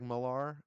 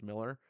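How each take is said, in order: First: The last syllable sounds like 'ar'. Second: The last syllable sounds like 'er'. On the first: The speaker calls it wrong. "I often say Mark Millar because it looks like Millar" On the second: The speaker calls it right. "it's just pronounced Miller"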